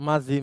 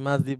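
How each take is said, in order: No difference in how they are said.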